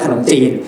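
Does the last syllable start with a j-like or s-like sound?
j-like. The last syllable starts with a j-like sound. This is how a typical man says it. "ถ้าให้ผู้ชายพูดขนมจีนอ่ะมันจะขนมจีน"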